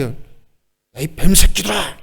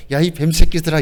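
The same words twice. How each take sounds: First: Put-on indignant rebuke; displeased scolding. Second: Easy, light delivery with a smile; put-on smiling scolding; mock smiling insult. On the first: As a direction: spit out the insult in displeasure. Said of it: "언짢게". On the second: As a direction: say the insult as if pleasantly amused. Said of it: "이렇게 웃으면서".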